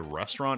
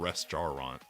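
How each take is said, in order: First: The word is shortened, with a syllable dropped. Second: Every syllable is said, just as spelled.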